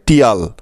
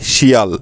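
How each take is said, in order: First: It is pronounced as tial, with a t sound. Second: It is pronounced as shial, with two vowels. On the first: "কেউ এটাকে উচ্চারণ করে টিয়াল" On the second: "কেউ বা আবার উচ্চারণ করে শিয়াল"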